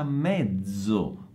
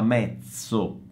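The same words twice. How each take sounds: First: The z is a voiced dz sound. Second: The z is a voiceless ts sound. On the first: The speaker calls it right. "ma si pronuncia mezzo come zanzara, con la Z sonora" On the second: The speaker calls it wrong. "non si pronuncia mezzo come pizza, no"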